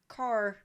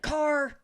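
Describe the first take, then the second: First: The word is said quietly and calmly. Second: The word is yelled loudly and sharply. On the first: It warns the driver without starting an argument. The speaker calls it right. "if I just say in a calm manner" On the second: It sounds like an alarm and starts an argument. The speaker calls it wrong. "don't yell in the car. Like, don't be like"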